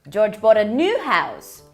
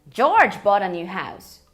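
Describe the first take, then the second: First: The word new carries the strongest stress. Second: The word George carries the strongest stress. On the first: The house is new rather than old. "uma casa nova e não uma casa velha" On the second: It was this person, not someone else, who bought it. "Quando eu enfatizo o George"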